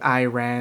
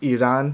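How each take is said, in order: First: It has a typical English-speaker pronunciation. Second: It has the local Persian-style pronunciation. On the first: The speaker calls it wrong. "native English speakers" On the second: The speaker calls it right. "and this is Iran"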